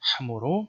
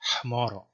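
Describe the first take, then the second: First: It is said the Western Syriac way. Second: It is said in between, with an h sound. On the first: "in the Western tradition" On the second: "the original Syriac pronunciation was probably something in between"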